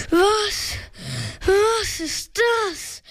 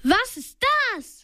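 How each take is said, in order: First: High, slow, panting fright; breathless, drawn-out question; gasping. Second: Mildly called question, higher onset; narrator's modest cry of alarm. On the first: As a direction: gasp it out in acted alarm. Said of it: "keuchte er". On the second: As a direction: lightly voice a startled call. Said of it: "rief Bob". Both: A narrator's reading.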